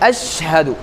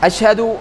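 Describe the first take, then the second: First: The word is said slowly, the sh held clearly. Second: The word is said quickly, the sh rushed. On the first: The speaker calls it right. "அந்த ஷீன் நல்லா தெளிவாக தெரிகிற அளவுக்கு" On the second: The speaker calls it wrong. "ஸ்பீடாகவும் போயிடக்கூடாது"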